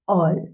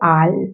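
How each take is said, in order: First: The vowel is a rounded 'aw' sound. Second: The vowel is an open 'aa' sound. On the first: The speaker calls it right. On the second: The speaker calls it wrong.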